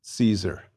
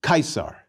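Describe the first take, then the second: First: Said in the usual way. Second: Caesar as KY-sar. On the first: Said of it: "the C in Caesar". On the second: Shown as a demonstration. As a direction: say "Caesar" the Latin way, with a hard K. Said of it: "like a K".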